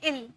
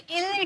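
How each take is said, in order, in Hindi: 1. स्वर छोटा और तुरंत है। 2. स्वर लंबा खिंचा हुआ है। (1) "तुरंत बोलेंगे इल" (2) "इल टान के नहीं बोलेंगे"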